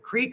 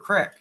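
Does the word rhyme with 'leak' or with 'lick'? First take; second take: leak; lick. First: The vowel is long, rhyming with 'leak'. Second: The vowel is short, rhyming with 'lick'. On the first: This is the form used elsewhere. "We still don't say creek" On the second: This is the form used in Kentucky. "We call it a crick"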